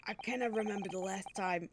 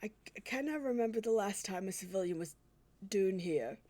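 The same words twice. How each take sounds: First: Said in the usual way. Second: Put-on a hesitant, self-doubting stab at a Scottish accent; the prison governor, in a halting Scottish accent; attempted Scottish accent. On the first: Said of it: "I can't do a Scottish accent". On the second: Prison governor greeting the visitors, halting Scottish accent. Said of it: "I can't, I can't do a Scottish accent".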